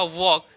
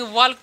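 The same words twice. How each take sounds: First: वॉक with a silent L; वॉक said as "wawk", no L; correct pronunciation. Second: वॉल्क with an audible L before the K; वॉल्क as many misread it, L pronounced; common mispronunciation. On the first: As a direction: drop the L, long vowel straight into K in वॉक. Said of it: "इसका उच्चारण होगा वॉक". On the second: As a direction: sound out the L in वॉल्क. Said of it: "बहुत लोग ऐसे पढ़ते हैं". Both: Shown as a demonstration.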